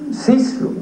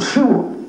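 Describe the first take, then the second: First: The surname is pronounced just as it is written. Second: The surname is pronounced with its original Polish sounds. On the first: The speaker calls it wrong. "por desconocimiento del polaco, todos decimos Cislov, ¿no? Porque así está escrito" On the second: The speaker calls it right. "algo así como Shuo, ¿no? Que esa es la pronunciación en polaco"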